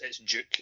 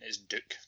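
First: The word is said with a British pronunciation. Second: The word is said with an American pronunciation. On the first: "If you're us" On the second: "If you're American"

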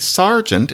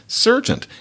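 First: The first vowel sounds like 'ar'. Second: The first vowel sounds like 'er'. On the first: This is the form that won out. "we say sergeant" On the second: This is the form it started out as. "instead of sergeant"

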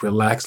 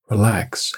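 First: It is said in a stern, scolding tone. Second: It is said in a gentle, calm tone.

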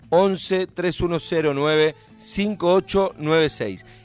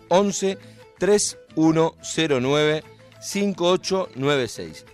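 First: The number is said at normal speed. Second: The number is said slowly.

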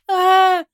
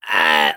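First: The scream is clear, not from the throat. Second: The scream is rough and guttural, from the throat.

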